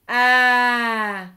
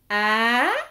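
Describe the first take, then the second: First: The pitch falls throughout. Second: The pitch rises throughout. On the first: "l'accent grave, a, affaissement du corps" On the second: "L'accent aigu, a, qui monte"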